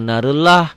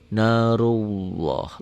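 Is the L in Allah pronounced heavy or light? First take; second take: light; heavy. First: The L is light and thin, without rounding. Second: The L is heavy and dark, almost like W. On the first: The speaker calls it wrong. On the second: The speaker calls it right. "L-nya kalau baris di atas menjadi seakan-akan ada W-nya"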